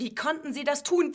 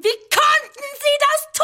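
First: Said in the usual way. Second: Sehr hoch und laut; hysterischer Aufschrei. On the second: Acted. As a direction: die Frage hinauskreischen. Hysterischer Ausbruch. (hoch und laut gekreischt)

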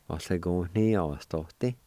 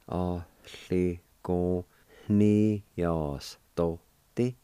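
First: Ollagóhnaíochtaí said as one whole word at a calmer pace; natural pace pronunciation. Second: Ollagóhnaíochtaí spelled out syllable by syllable, very slowly; slow careful pronunciation. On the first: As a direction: join the syllables of Ollagóhnaíochtaí together. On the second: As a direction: stretch every syllable of Ollagóhnaíochtaí. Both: Shown as a demonstration. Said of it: "It's pronounced like this".

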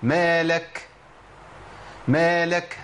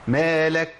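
First: "مالك" with a long h puff after the k; wrong whispered-h release on "مالك"; kaf ending in ha. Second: "مالك" with a short light aspiration on the final k; correct kaf hams. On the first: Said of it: "سمعت مني هاء". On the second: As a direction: clean "مالك", brief breath on the kaf only. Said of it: "هو ده الهمس". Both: Shown as a demonstration.

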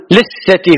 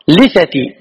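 First: "لثتي" as liththati, held th; mistaken doubled tha. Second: "لثتي" as lithati, single th; light tha. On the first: Retold or imitated. Imitating what some people say, "لثتي" with heavy th. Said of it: "غلط". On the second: Shown as a demonstration. Teacher correcting the common error, "لثتي" with light th. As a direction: keep the th of "لثتي" short. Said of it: "بتخفيف الثاء".

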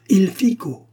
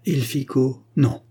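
First: Sudden high, loud cry of discovery; exclaiming. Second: Musing over the words, tentative; pensive. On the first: Eustache suddenly grasping the word's meaning, exclaiming. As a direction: burst out as the meaning clicks. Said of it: "s'écria-t-il en se levant". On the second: Eustache puzzling over an Italian word, pensive. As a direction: mull it over, then dismiss it. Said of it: "dit Eustache pensif". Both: A narrator's reading.

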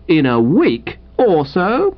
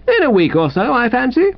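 First: Slow, higher, disbelieving question rising at the end; incredulous echo. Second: High, breezy, unbothered answer; airy reply. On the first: Wooster echoing his unwelcome guest's answer, incredulous. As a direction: repeat it slowly in dismay. Wooster echoes the reply, appalled. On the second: Invalid rival telling Wooster how long he stays, airy. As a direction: toss it off airily in a higher voice. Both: Acted.

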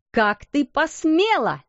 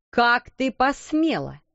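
First: Slower, higher furious repeat; angry outcry. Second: Angry cry. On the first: Headmistress catches the maid, slow furious outcry. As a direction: hurl the question at her. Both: Acted. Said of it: "вскричала она".

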